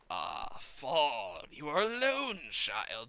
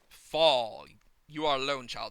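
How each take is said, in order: First: It is read in the villain's creepy voice. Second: It is read in the speaker's normal voice.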